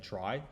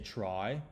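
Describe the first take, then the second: First: The word is said short and clipped. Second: The word is drawn out and trails off. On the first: "instead of saying try" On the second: "You make it trail off"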